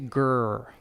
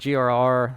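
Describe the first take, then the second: First: It is said as one growled word. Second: It is spelled out as separate letters. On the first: The speaker calls it right. "To be cool, you say G R" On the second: The speaker calls it wrong. "I kept saying G R R"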